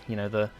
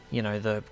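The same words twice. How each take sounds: The two takes are said the same way.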